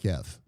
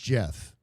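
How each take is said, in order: First: It begins with a hard G sound. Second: It begins with a soft J sound. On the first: "and not GIF" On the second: "pronounces GIF as GIF"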